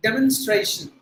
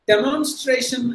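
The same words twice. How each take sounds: First: Demonstration with an ay glide before shun; teacher gives the correct form; right way. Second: Demonstration with a plain long A, slow; teacher shows the mistake first; wrong way. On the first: Correct pronunciation. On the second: Wrong pronunciation, slow. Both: Shown as a demonstration. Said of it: "demonstration இல்ல".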